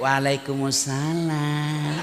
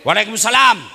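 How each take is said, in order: First: It is said in a soft, drawn-out, lilting voice. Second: It is said in a firm, curt, businesslike voice.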